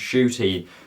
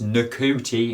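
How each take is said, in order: First: The name begins with a 'sh' sound. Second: The name does not begin with 'sh'. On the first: The speaker calls it right. "it's pronounced Shooty" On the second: The speaker calls it wrong. "It's not pronounced Ncuti"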